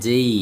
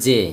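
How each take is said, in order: First: "জেই" gliding from e into i; corrected letter pronunciation. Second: "জে" with a plain e, no glide; common local pronunciation. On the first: Teacher corrects how students say letter J, corrected pronunciation. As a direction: finish "জেই" on a clear ee glide. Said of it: "এটা হবে জেই". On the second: Teacher shows how we usually say letter J, common local pronunciation. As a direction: end "জে" on one pure vowel. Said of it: "আমরা বলি জে". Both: Shown as a demonstration.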